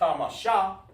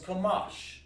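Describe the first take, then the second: First: The word ends with an extra vowel sound. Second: The word ends on the sh consonant. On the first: The speaker calls it wrong. "We don't say kamasha" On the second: The speaker calls it right. "So it's kamash"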